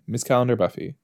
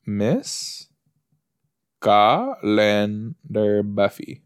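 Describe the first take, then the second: First: Said in the usual way. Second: Very slow "Miss... Ca-len-dar Buffy", with gaps; slow sounding-out. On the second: Real, not acted. Looking the name up on the internet, slowly sounded out. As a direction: stretch CALENDAR syllable by syllable. Sounding out words while searching online.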